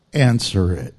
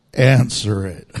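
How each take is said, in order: First: A very low, loud, commanding "Answer it"; deep voice of the Lord. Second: Very low, louder, booming "Answer it"; deep voice of the Lord. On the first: The Lord commanding a tired believer, low and loud. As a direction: drop far down and command it like God. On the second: The Lord insisting to a reluctant believer, booming low. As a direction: boom it out even deeper, like God insisting. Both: Acted. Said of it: "And the Lord says".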